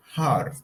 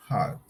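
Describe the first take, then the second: First: "hard" with a clear R; American heart, R sounded. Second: "hard" with no R, long "ah"; British heart, no R. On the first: Teacher showing American "heart" with R. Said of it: "American English, sounds". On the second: Teacher showing British "heart" without R. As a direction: drop the R in "hard". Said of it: "In British English, sounds". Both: Shown as a demonstration.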